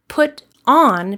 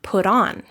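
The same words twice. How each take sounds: First: Word-by-word "put ... on"; unlinked words. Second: "put on" run together as one word; joined-up "put-on", no gap; linked words. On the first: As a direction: PUT and ON said apart with a pause between. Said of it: "This type of linking". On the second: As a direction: slide the T of "put" straight into "on". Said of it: "Put on becomes put on". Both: Shown as a demonstration.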